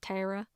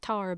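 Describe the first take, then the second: First: The name sounds like the word 'terror'. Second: The name does not sound like 'terror'. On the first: This is how the name is said in that place. "there the name is Tara. ... it sounds like terror" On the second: This is how the speaker says her own name. "my name's Tara"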